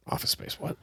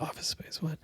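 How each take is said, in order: First: Whispered, puzzled question; surprised whisper. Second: Whispered, eager question; perked-up whisper. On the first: Owner hearing the news in the roasting room, whispered surprise. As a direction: hiss it to yourself, puzzled. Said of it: "And I was like". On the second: Barista overhearing at the counter, whispered surprise. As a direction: hiss it out, ears pricked. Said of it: "she perks up and she's like". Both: Retold or imitated.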